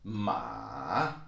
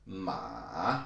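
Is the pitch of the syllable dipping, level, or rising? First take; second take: dipping; dipping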